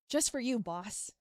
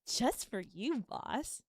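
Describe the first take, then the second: First: The tone sounds warm and supportive. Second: The tone sounds playful and flirty. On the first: "just for supportive" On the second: "And then flirty"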